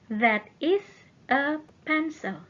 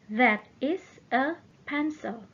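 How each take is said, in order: No difference in how they are said.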